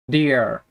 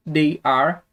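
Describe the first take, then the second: First: "they're" as one falling syllable; contracted form. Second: "they are" as two words, rising; full form. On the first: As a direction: merge it into "they're". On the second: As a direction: keep "they are" uncontracted. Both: Shown as a demonstration. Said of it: "podemos falar também é sobre as contrações".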